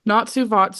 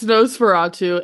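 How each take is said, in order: First: It is said with the sounds of Natsufatsu. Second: It is said with the sounds of Nosferatu. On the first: The speaker calls it wrong. "I thought you were just saying it because it's really funny" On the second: The speaker calls it right. "It's Nosferatu"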